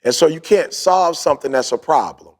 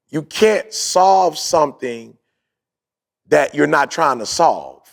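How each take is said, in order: First: Said in the usual way. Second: Each word laid out slowly for the listeners; slow, deliberate repeat. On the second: Shown as a demonstration. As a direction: spell it out slowly so they catch it. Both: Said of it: "I'm gonna say that again".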